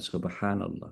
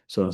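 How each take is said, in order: First: The phrase is said fully at a normal pace. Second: The phrase is rushed and clipped into one syllable. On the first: "maka tidak lagi mengucapkan subhanallah" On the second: "saking cepatnya kepengen segera selesai"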